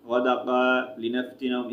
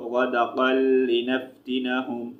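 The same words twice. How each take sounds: First: गदक़ा लिनफ्तिनहुम with the open गदक़ा kept, not joined to लि; wrong reading. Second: गदक़ल लिनफ्तिनहुम with गदक़ल linked straight into लि; correct joined reading. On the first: Teacher showing students the mistake to avoid. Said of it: "इस तरह नहीं पढ़ेंगे". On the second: Teacher showing students the right way to join the words. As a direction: say गदक़ल, with the l sound, then लिनफ्तिनहुम. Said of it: "अगर वक़्फ़ नहीं करेंगे तो". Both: Shown as a demonstration.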